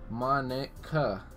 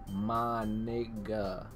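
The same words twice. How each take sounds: First: The name is said at a normal pace. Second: The name is said slowly, drawn out.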